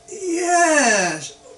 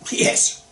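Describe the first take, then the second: First: It is said in a doubtful, uncertain way. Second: It is said firmly, ending flat and final. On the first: The answer is only maybe. "which means maybe" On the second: The answer is a firm yes, no discussion. "pronounced with a dot"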